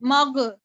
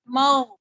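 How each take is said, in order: First: मग with a hard G and a little vowel after; wrong G sound. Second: मग loud, ending in a held throaty GH; throaty ghain. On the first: Teacher showing how not to read, मग with a plain hard G. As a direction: say मग as mag-uh, no throat friction. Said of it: "ना मैंने इसको जी की sound से पढ़ा". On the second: Teacher modelling the letter ghain, मग with a throaty GH. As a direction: hold the ghain at the end of मग, no vowel. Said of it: "मैंने इसको गैन पढ़ा है". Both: Shown as a demonstration.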